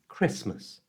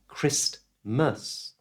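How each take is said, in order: First: The T sound is left out entirely. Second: The T sound is pronounced in the middle. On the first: The speaker calls it right. "we don't usually pronounce the letter T. ... It's Christmas" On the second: The speaker calls it wrong. "So it's not Christmas"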